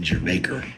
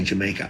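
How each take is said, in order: First: "Jamaica" with r-coloured vowels, like "jer-MAKE-er"; own pronunciation of Jamaica. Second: Said in the usual way. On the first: Shown as a demonstration. Comedian showing how he says it, "Jamaica" ending like "maker". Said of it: "That's how I say it". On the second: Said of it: "that's how I say Jamaica".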